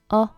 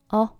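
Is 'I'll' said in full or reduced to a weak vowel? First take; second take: reduced; reduced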